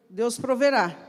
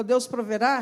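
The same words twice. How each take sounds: First: Said in the usual way. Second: "Deus proverá?" lifted at the end as a question; questioning rise on "proverá"; echoed question. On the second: Retold or imitated. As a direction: repeat "Deus proverá?" back, rising in doubt on "proverá".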